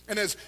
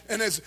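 Both takes have the same delivery.

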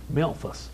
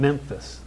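First: Memphis said as "Melfus", L before the f sound. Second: Said in the usual way. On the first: Retold or imitated. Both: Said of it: "There's an L in Memphis".

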